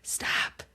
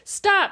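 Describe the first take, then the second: First: The word is said in a whisper. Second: The word is said aloud, not whispered. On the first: The speaker calls it right. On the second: The speaker calls it wrong.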